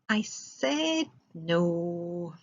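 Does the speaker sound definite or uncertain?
uncertain. It is said hesitantly and without certainty. The refusal might still change. "if I say it like this"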